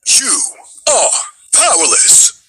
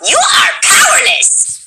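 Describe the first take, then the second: First: It is said in the smooth character voice. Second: It is said in Ray's raspy voice.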